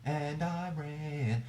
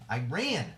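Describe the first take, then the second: First: \"Iran\" stretched slowly and higher; drawn-out Iran. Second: \"Iran!\" said with punch, clipped and strong; emphatic Iran. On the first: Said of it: "emphatically like that". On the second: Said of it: "whenever I say it, like, emphatically like that". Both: Shown as a demonstration.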